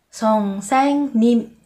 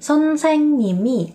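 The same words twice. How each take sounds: First: The word is said slowly and carefully. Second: The word is said quickly and smoothly.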